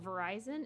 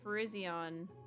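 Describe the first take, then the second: First: It sounds just like the phone company. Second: It does not sound like the phone company. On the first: The speaker calls it wrong. "Verizon or something in the Keldia movie" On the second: The speaker calls it right. "Virizion sounds better than Verizon just because it doesn't sound like the phone"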